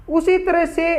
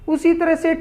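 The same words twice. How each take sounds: The two takes are said the same way.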